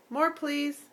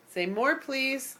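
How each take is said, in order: First: Said in the usual way. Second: More, please drawn out slowly with more lifted; slow modelled phrase. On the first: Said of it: "Say it again". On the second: Shown as a demonstration. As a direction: say it slowly for her to copy.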